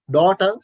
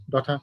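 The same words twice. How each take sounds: First: DAUGHTER rising, T clearly released; British pronunciation. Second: DAUGHTER with the T played down; flat T. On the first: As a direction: give the T in "daughter" full weight. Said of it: "British people, daughter". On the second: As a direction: keep the T in "daughter" light. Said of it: "the flat T sounds". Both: Shown as a demonstration.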